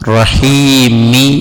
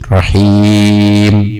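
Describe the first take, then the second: First: The final m is followed by a short i vowel. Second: The word ends on the m with no vowel. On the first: "റഹീമി എന്നാണ് അവിടെ ഉള്ളത്, മീമിന് കസ്റാണ്" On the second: "അവിടെ വഖഫ് ചെയ്യുമ്പോൾ മീമിന് സുക്കൂനായി വരുന്നു"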